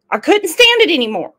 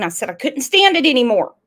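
First: Higher, louder, fast exasperation; exasperated. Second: Said in the usual way. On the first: Retold or imitated. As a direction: blurt it out, fed up.

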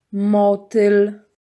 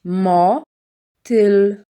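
First: Said in the usual way. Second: "Motyl" read a little drawn out, syllable by syllable; slowed reading. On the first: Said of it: "second take, normal". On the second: Shown as a demonstration. Teacher reads the word slowly for a child. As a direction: stretch "Motyl" gently for a beginner. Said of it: "first take, slower".

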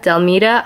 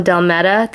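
First: Delmeda with MEE in the middle; long-e pronunciation. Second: Delmeda with MED in the middle, rhyming with meta; short-e pronunciation. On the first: Vlogger trying out a sender's name, long-e pronunciation. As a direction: say Delmeda as del-MEE-duh. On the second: Vlogger trying out a sender's name, short-e pronunciation. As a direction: say Delmeda as del-MET-uh. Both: Shown as a demonstration. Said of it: "not sure how to pronounce her name".

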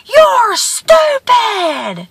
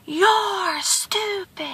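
First: Slow, high holler; drawn-out high yell; screamed insult. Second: High, soft, drawn-out call; faint faraway holler, stretched out; distant echo. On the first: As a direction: hurl the insult across the valley. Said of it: "he screams again". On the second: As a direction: mimic the insult floating back. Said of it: "from the distance he hears". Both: A narrator's reading.

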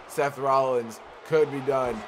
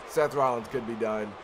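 First: Drawn-out hyped call; slower, building excitement. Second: Said in the usual way. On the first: Real, not acted. Commentator sensing the finish, slower, hyped. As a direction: let the call swell as the finish nears.

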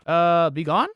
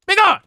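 First: Said in the usual way. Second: High dramatic banishing shout. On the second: Pretend. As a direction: cast it out with a shout. Banishing with cross.

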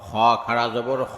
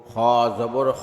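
First: Final "খ" held long; drawn-out vowel. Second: Final "খ" cut short; quick short vowel. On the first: Teacher demonstrating khara jabar, long "খ". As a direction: stretch the last "খ" for one alif. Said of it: "একালিপ টেনে পড়তে". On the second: Teacher demonstrating normal jabar, short "খ". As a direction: keep the last "খ" brief, not held. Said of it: "তাড়াতাড়ি করতে হয়". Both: Shown as a demonstration.

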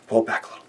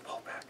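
First: Whispered "Pull back a little."; fading to a whisper. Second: "Pull back." almost silent, trailing off; fading out completely; barely audible. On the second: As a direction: breathe "Pull back." out to nothing. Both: Real, not acted. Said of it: "Gotta pull back".

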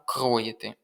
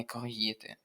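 First: "кроїти" correctly stressed on the first syllable, кро. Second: "кроїти" with the stress wrongly on the second syllable, ї; softer, slower "кроїти", stressing the ї. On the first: Tutor giving the right answer, "кроїти" stressed on кро. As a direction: hit the о in "кроїти". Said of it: "Правильно". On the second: Tutor rejecting the mistake, "кроїти" wrongly stressed on ї. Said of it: "а не". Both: Shown as a demonstration.

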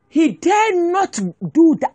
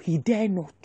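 First: "dare" drawn out, higher and louder, slow; slow, loud, stretch out "dare"; emphatic stress on dare. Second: Said in the usual way. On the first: Shown as a demonstration.

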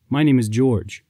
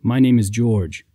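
First: Gentle, even "My name is George."; calm introduction. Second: Slow, declared "My name is George."; proclaiming shout. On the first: Knight calmly introducing himself to the weeping princess. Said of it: "asked her calmly". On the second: Knight proclaiming his name to the townspeople, slow and firm. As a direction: announce "My name is George." slowly to the crowd. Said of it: "shouted to the townspeople". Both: A narrator's reading.

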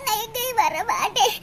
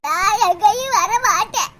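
First: Much lower and softer, rising whiny no; tearful refusal. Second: Much lower, slow sulky no; stubborn refusal. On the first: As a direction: sniffle it out, refusing. Daughter refuses again, tearful. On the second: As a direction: dig in your heels, lightly sulking. Daughter refuses hospital. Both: Acted.

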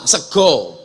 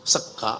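First: "sego" with a round o, as in Javanese; Javanese pronunciation. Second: "sego" said as sega, ending in a; ngapak pronunciation. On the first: Preacher showing Javanese "sego", ending in o. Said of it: "Jawa, sego". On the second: Preacher contrasting ngapak "sego", said as sega. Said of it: "Ngapak, sego". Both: Shown as a demonstration.

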